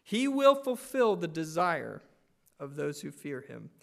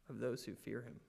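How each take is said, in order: First: Loud, with stress on "will"; declared boldly from the pulpit; proclaimed. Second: Quiet, fading repeat with "those" dropped low; hushed reflective echo; soft repeat. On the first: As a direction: ring out "He will fulfill", land on "those". First proclaimed reading. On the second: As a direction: let it sink in softly. Repeated softly for emphasis. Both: Acted.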